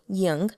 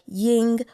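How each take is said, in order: First: The name ends in a stronger 'ong' sound. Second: The name ends in a plain 'ing' sound. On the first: "putting more emphasis on the ng" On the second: "some people may just say ing"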